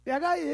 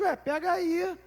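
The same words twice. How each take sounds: First: Put-on high, loud childish "Pega aí" with a rise; a light toddler voice, pitched up; casual toddler. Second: Put-on high, offhand little-girl voice; lightly voiced toddler, pitched up and casual. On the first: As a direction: say "Pega aí" like a bossy little kid. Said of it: "né, assim, meio". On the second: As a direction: toss it off like it's nothing, as a small child. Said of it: "falou na maior naturalidade".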